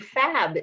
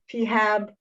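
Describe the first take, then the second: First: It is one syllable starting with an F sound. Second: It starts with a separately spoken letter P. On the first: This is a newly suggested pronunciation. "changing the pronunciation of our name, which was suggested by somebody recently, to FAB" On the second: This is the name's current pronunciation. "instead of P HAB"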